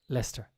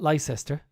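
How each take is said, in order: First: The name is shortened to two syllables. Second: The name is said with every written syllable. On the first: The speaker calls it right. "Doesn't make sense" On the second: The speaker calls it wrong. "It's not Leicester"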